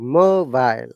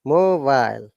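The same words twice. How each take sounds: Both takes have the same delivery.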